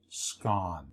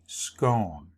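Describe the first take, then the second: First: The vowel rhymes with the word gone. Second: The vowel rhymes with the word tone. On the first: "The proper pronunciation rhymes with the word gone" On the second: "The other way, which is accepted, rhymes with tone"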